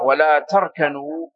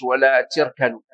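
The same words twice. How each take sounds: First: Slow, تركنوا with "a" after the t; standard fatha reading. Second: تركنوا with an "i" after the t; kasra reading. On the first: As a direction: say تركنوا slowly as "tarkanu". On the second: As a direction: say تركنوا as "tirkanu". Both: Shown as a demonstration. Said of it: "قرئت".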